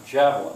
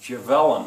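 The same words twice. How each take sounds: First: The stress is on the first syllable. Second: The stress is on a later syllable. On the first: The speaker calls it right. "Which one's stressed? The first one" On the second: The speaker calls it wrong. "Otherwise it would be"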